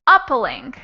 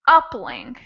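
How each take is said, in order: First: The stress is on the first syllable. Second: The same.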